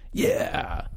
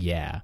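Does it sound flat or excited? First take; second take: excited; flat. First: It sounds excited and enthusiastic. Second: It sounds flat and unenthusiastic.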